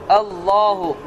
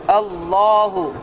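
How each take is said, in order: Both takes have the same delivery.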